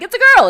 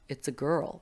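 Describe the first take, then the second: First: It is said in an excited tone. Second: It is said in a disappointed tone.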